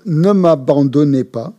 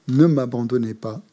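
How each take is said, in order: First: Louder, slow entreaty with weight on "ne"; earnest prayer said out; fervent plea. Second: Said in the usual way. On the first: Shown as a demonstration. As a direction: plead "ne m'abandonnez pas" slowly and louder. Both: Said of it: "repeated plea to the Buddhas".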